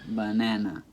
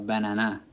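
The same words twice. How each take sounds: First: The stress is on the middle syllable. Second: The stress is not on the middle syllable. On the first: The speaker calls it right. "You know it's in the middle" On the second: The speaker calls it wrong. "As opposed to banana or banana"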